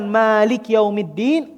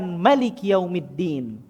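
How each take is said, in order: First: The first vowel of Malik is drawn out long. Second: The first vowel of Malik is kept short. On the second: "kita pendekkan"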